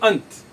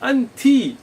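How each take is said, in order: First: The word ends on a bare t consonant. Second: The word ends with a final i vowel. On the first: "You will not just say ant" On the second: "many times you will say anti"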